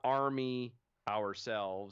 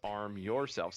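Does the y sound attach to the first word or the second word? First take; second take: first word; second word. First: The y sound ends the first word. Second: The y sound starts the second word. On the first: The speaker calls it wrong. "It's not army ourselves" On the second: The speaker calls it right. "It's arm yourselves"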